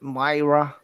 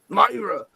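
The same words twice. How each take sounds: First: The name is said in a plain, gentle accent. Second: The name is said in an angry Italian accent. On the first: The speaker calls it right. "I don't have to do an Italian accent" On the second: The speaker calls it wrong. "like an Italian way"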